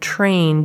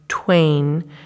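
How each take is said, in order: First: The word starts with a T and R cluster. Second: The word starts with a T and W cluster. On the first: "instead of, for example, producing PR" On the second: "they produce PW"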